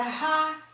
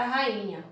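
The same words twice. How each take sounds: First: RAINHA split as ra, i, nha; syllable by syllable. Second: Said in the usual way. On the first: Shown as a demonstration. Teacher showing how rainha is separated, syllable by syllable. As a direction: say rainha in three spaced syllables. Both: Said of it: "eu separei a palavra rainha".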